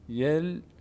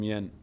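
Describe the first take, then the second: First: The n merges into a doubled l sound. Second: The syllable ends with a clear n sound. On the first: The speaker calls it right. "نون تبدیل میشه به لام" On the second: The speaker calls it wrong. "نمیگیم ین"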